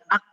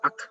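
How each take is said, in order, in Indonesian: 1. K di akhir berhenti mendadak tanpa udara. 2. K di akhir dilepas dengan hembusan yang terdengar. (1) "jangan ak, jangan berhenti" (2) "Biarkan udara itu mengalir"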